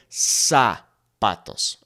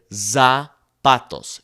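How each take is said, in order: First: "zapatos" with a hissing S; Spanish S sound. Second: "zapatos" with an English buzzing Z; mispronounced with a Z; wrong Z sound. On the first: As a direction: say "zapatos" with a clear S. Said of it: "It is S, like a snake". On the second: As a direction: say "zapatos" with a voiced Z, wrong on purpose. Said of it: "you wouldn't say". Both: Shown as a demonstration.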